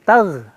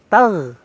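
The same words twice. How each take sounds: First: The final consonant is a soft gh sound. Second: The same.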